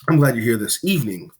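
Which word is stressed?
evening. The word evening carries the main stress. This time of day is the best one. "This is the superior time of day for this"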